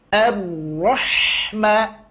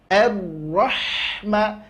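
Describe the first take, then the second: The two takes are said the same way.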